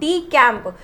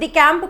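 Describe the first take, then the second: First: The word is said slowly, syllable by syllable. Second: The word is said at normal speed. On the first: "मैं इसे धीरे धीरे क्या पढ़ रही हूँ" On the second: "इसको प्रोनाउंस डी कैंप करते हैं"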